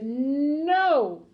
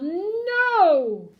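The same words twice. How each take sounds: First: Long, drawn-out no, moderately loud; stubborn, raised-voice no, short of a yell; firm refusal. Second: Long, high, loud no; stubborn drawn-out shout; yelled refusal. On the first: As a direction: refuse firmly, stretching the word. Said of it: "The father said". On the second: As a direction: yell it, swelling through the word. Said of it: "The father yelled". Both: A narrator's reading.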